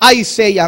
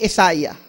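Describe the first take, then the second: First: It is said the usual English way. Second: It is said as 'Isa-ya', beginning with 'isa'.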